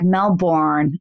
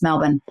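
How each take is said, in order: First: Pronounced the way Americans say it. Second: Pronounced the way Australians say it. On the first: The speaker calls it wrong. "So Americans are like Melbourne" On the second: The speaker calls it right. "that's not how it's pronounced. It's Melbourne"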